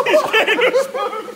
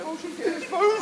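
First: Blurted out higher and louder through laughter; cracking up as she grabs the spoon; laughing loudly. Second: Said in the usual way. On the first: Real, not acted. Friend fetches spoon, cracking up.

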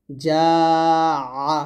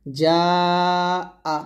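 First: Long যা, then আ squeezed in the throat; ayn version. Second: Long যা, then আ on a clean glottal stop; hamza version. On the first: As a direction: stretch যা, then press আ out as ayn. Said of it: "আইন জবর আ". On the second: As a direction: stretch যা, break, release a plain আ. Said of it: "এটা হচ্ছে হামজা জবর আ". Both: Shown as a demonstration.

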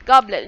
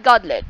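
First: "goblet" with a clear B in the middle; correct GOBLET. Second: "godlet" with a D in place of B; mistaken GODLET. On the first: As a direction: stress the corrected B sound in "goblet". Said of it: "goblet, not godlet". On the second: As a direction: say "godlet", swapping the middle B for D. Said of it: "not godlet". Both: Shown as a demonstration.

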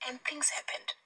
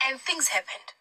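First: Hushed whisper of the line. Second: Said in the usual way. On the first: Shown as a demonstration. Preacher whispering to the congregation. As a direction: breathe it out, almost unvoiced.

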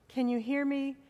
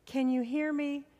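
Both takes have the same delivery.

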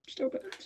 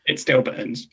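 First: Whispered echo. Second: Said in the usual way. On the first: Acted. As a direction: repeat Still burns in a pained whisper.

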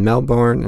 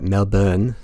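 First: Said in the usual way. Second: Slow, badly faked Australian pronunciation; hammed-up Aussie "Melbourne", drawn out with a lift; terrible Australian accent. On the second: Shown as a demonstration. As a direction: say "Melbourne" as MEL-bun, dropping the R in a bad Australian accent. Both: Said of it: "That's my terrible Australian accent".

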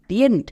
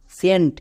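First: টিয়েন্ট said with a t sound, the wrong way; wrong ending. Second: সেন্ট with a plain s sound; correct ending. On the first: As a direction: show the mistaken ending টিয়েন্ট. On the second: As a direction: give the right ending, সেন্ট. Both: Shown as a demonstration. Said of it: "টিয়েন্ট না".

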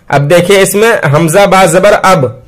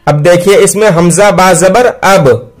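No difference in how they are said.

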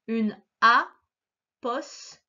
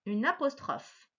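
First: Apostrophe drawn out very slowly, syllable by syllable; syllabified reading. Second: Said in the usual way. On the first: Shown as a demonstration. Teacher sounding out apostrophe for a pupil. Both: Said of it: "Je vais les lire avec toi".

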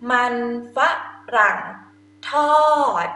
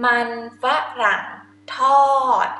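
No difference in how they are said.

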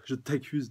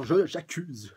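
First: Said in the usual way. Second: Loud, higher accusing cry; a touch of a hammed-up accusation; mild mock outburst of blame. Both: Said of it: "elle l'accuse directement".

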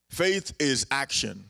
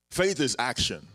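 First: "faith is action" said slowly, "faith" hit hard; slow, stressed. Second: Said in the usual way. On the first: Shown as a demonstration. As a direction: spell out "faith is action", each word weighed. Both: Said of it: "faith is action (repeated)".

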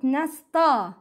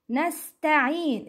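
First: Nasta with a dark "taw"; heavy sound. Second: Nasta'in with a thin, front "ta"; light sound. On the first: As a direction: make the ta in nasta thick. (nasta ending on a back aw vowel) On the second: (Nasta'in with "ta" like tae) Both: Shown as a demonstration. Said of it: "it's not nasta".

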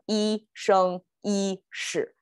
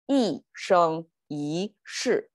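First: 一生一世 slowly with three high flat tones, then a fall on 世; difficult flat tones. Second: 一生一世 as a curve: falling 一, flat 生, rising 一, falling 世; better tone flow. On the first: Teacher contrasting the harder way, 一生一世 in stiff flat tones. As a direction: hold 一, 生 and 一 level and separate, drop 世. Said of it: "It's more difficult". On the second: Teacher correcting the tones, 一生一世 in a falling, flat, rising, falling flow. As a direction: let 一生一世 go down, level, up, then down. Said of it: "which is a better flow of tones". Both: Shown as a demonstration.

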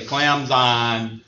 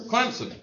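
First: "Clemson" said the outsider way, "Clem-zun" with a clear E and Z, slowly. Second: "Clemson" said the local way, "Clim-son" with a P sound. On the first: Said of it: "If you're not from around here". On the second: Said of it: "there's two ways to pronounce Clemson". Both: Shown as a demonstration.

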